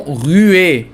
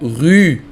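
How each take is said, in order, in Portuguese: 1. O e final é pronunciado como uma vogal extra 'ay'. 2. O e final é silencioso depois da vogal u. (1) "e não rue, porque não tem acento" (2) "se pronuncia rue"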